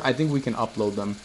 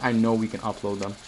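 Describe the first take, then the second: First: "think" leaned on, hedged; stress on think. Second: "know" said firmly as a correction; stress on know. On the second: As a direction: correct yourself, firm on "know". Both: Shown as a demonstration. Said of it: "no, I don't think".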